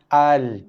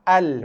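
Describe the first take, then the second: First: The opening vowel is held for one full beat. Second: The opening vowel is clipped shorter than one beat. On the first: The speaker calls it right. "kita akan baca dia dengan baris atas dengan kadar satu harakat terlebih dahulu" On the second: The speaker calls it wrong. "Tak nak baca dengan al, al, maka hamzah wasal tersebut dibaca dengan kadar tidak sampai pun satu harakat"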